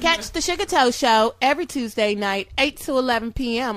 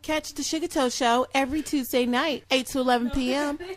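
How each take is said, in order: First: It is said in a put-on announcer voice. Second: It is said in his natural speaking voice.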